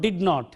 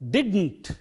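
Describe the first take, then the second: First: It is said as two full separate words. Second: It is said as one short contracted word. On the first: The speaker calls it wrong. "It is not did not" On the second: The speaker calls it right. "it is didn't"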